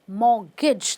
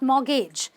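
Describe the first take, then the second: First: The last syllable has a short 'ih' vowel. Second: The last syllable has a full 'ay' vowel. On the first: The speaker calls it right. "That's a" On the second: The speaker calls it wrong.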